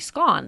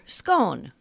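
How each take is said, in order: First: The vowel rhymes with gone. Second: The vowel rhymes with bone. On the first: "pronounce that word S-C-O-N-E to rhyme with the word gone" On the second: "pronounce the word to rhyme with bone or scone"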